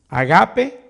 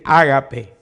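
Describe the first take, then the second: First: "agape" with the stress on the middle syllable, a-GA-pe; agape stressed on second A. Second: "ágape" with the stress on the first syllable, Á-ga-pe. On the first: Preacher showing how others pronounce it, "agape" stressed on the GA. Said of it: "como que en la segunda A". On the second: Preacher quoting others' pronunciation, "ágape" stressed on the first A. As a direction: hit the opening A of "ágape". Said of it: "como que tuviera acento en la A". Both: Shown as a demonstration.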